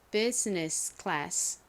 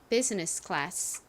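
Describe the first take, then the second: First: It is said slowly and deliberately. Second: It is said at a normal speed.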